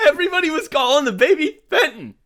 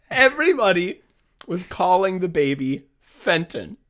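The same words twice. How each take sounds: First: High-pitched, helpless laughter through the words; laughing. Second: Measured retake, drawing out the name; composed re-read. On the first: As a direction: crack up while reading it out. Cracks up reading out text. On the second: Rereads text after cracking up. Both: Real, not acted.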